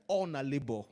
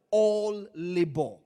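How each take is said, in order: First: Nigerian Pidgin-flavoured delivery; Nigerian accent. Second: Said in the usual way. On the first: Shown as a demonstration. Preacher restating the Bible verse for the congregation, Nigerian accent. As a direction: say it the Nigerian way, "All na labor". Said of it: "in Nigerian accent?". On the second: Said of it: "can I say this in a".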